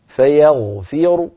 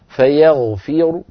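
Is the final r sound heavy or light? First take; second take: heavy; heavy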